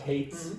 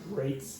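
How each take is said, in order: First: The word starts with a breathy h sound. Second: The word starts with an r sound. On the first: The speaker calls it wrong. "Not hates" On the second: The speaker calls it right.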